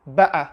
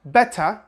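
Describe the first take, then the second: First: "better" with a catch in the throat for the T; Cockney-style glottal "better". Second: "better" with a clear T; pronounced T. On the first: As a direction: say "better" as "beh-uh", T swallowed. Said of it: "some of them also say better". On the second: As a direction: say "better" as "beh-tuh". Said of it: "Some British people say better". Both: Shown as a demonstration.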